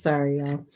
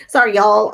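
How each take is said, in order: First: Said in the usual way. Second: A playful Southern accent on "Sorry, y'all", louder. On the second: Shown as a demonstration. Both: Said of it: "see, I'm turning Southern".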